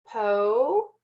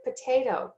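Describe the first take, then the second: First: Po-tay-to in three separate, lengthened syllables. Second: Said in the usual way. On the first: Shown as a demonstration. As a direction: break po-tay-to apart with long pauses, each vowel open. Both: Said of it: "there are three open syllables".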